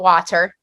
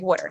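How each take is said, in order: First: Water is said with a standard American pronunciation. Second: Water is said the Philadelphia way, like wooder.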